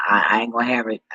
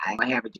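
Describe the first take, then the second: First: Louder, punching have hard; firm emphatic vow. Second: Said in the usual way. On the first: Real, not acted. Ranting about the dog, insisting firmly. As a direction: lay down the law, I ain't gonna have it with weight on have.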